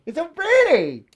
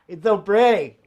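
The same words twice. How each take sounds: First: Sing-song, drawn-out "so pretty" up high; high, slow "It's so pretty". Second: Said in the usual way. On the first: Shown as a demonstration. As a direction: gush over it slowly in a raised voice. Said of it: "repeated line, high slow take". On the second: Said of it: "repeated line, second take differs".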